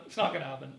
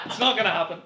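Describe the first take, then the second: First: Said in the usual way. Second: Laughing through it, louder; laughing denial. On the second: Acted. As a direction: blurt it out with a laugh. Mock dramatic repeat of denial.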